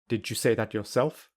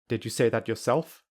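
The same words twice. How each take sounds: First: The d and you merge into j. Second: The d is dropped or softened. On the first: "I will use linking" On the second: "I will say them without a d or a softer d"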